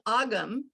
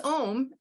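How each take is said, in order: First: The word sounds like 'ogum'. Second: The word sounds like 'ohm'. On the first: The speaker calls it wrong. "I was saying Ogum" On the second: The speaker calls it right. "it's Ohm"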